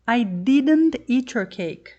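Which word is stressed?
didn't. The word "didn't" carries the main stress. The denial is insisted upon. "I've told you I didn't eat your cake, so stop saying I did"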